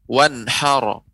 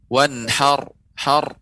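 First: The word ends with an added vowel after r. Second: The word ends on a held r sound. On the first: The speaker calls it wrong. "bedakan kalau saya membacakan dengan ro" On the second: The speaker calls it right. "itu hanya sekedar pantulan wanhar har"

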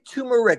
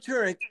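First: The word is pronounced clearly and distinctly. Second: The word is pronounced in a garbled, unclear way. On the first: The speaker calls it right. "Let's say turmeric" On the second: The speaker calls it wrong. "he said it so poorly and pronounced it so badly"

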